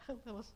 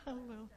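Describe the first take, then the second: No difference in how they are said.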